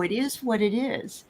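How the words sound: It is said in a sincere, accepting tone. The situation is accepted calmly and positively. The speaker calls it right. "but not in a dismissive way"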